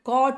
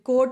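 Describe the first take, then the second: First: The vowel is an open 'ah' sound. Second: The vowel is a rounded 'oh' sound. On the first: The speaker calls it right. "C ಓ T ಬಂದರೆ ಕಾಟ್ ಆಗುತ್ತೆ" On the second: The speaker calls it wrong. "ಕೋಟ್ ಅಲ್ಲ"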